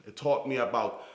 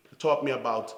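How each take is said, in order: Both takes have the same delivery.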